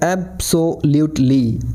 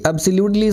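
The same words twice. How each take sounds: First: Absolutely said slowly, ab-so-lute-ly with each syllable hit; every syllable stressed. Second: Said in the usual way. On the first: Shown as a demonstration. Teacher showing full emphasis, slow with every syllable of absolutely stressed. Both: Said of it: "हर एक शब्द के हर एक syllable पर जोर".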